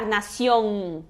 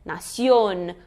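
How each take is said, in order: First: "nación" ending in a nasal vowel, N not sounded; nasal Portuguese ending. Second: "Nación" lower, ending on a fully tongued N; clear final N. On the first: Teacher showing students what to avoid, nasalised Portuguese ending. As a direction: swallow the final N of "nación" into the nose. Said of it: "esse som do português". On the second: Teacher correcting the nasal ending, well-sounded N. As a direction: close "Nación" with tongue behind the teeth. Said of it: "Tudo bem pronunciado o N". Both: Shown as a demonstration.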